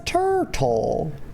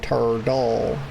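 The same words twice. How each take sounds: First: The middle consonant is a crisp T sound. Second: The middle consonant is a soft D sound. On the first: "I don't usually pronounce, you know, it like that" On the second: "I make it a D sound"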